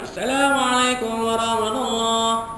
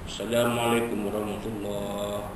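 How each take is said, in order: First: It is said in a loud, ringing voice. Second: It is said in a deep bass voice.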